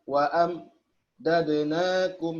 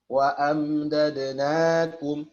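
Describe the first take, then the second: First: A brief stop breaks the word after am. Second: The word flows on without any stop. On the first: The speaker calls it wrong. "memberikan jeda ... berhenti sejenak tanpa mengambil nafas" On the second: The speaker calls it right. "ya jangan"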